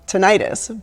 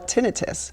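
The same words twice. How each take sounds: First: The stress is on the second syllable. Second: The stress is on the first syllable. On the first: The speaker calls it wrong. "people think it should be called tinnitus, but if you think about something like laryngitis or tonsillitis" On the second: The speaker calls it right. "We call it tinnitus"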